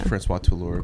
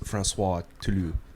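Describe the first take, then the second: First: The name is said with an American accent. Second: The name is said with a French accent. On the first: This is how the film says it. "they say it with an American accent" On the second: This is how it would be said in France. "like France"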